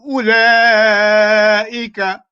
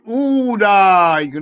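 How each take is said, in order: First: The first vowel is short with the waw skipped. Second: The first vowel is drawn out as a long oo. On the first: The speaker calls it right. "we don't read that" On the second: The speaker calls it wrong. "You don't say ooh"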